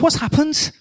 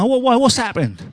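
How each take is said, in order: First: It is spoken in a Liverpool accent. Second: It is spoken in a London accent. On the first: "Maybe he was from somewhere else" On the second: "Maybe he put an accent from the south"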